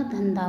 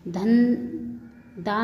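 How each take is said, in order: First: Said in the usual way. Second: "धन, दा" split, ending unaspirated; mispronounced. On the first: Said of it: "होता है". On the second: Shown as a demonstration. Teacher showing students an error, "धन, दा" without final aspiration. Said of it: "नहीं होता".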